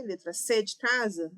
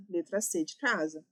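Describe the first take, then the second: First: Said in the usual way. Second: "Letra C de casa" said lower as a settled answer; lower, confirming. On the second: Shown as a demonstration. Teacher confirming the answer key to students, lower and settled. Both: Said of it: "deixa eu ver".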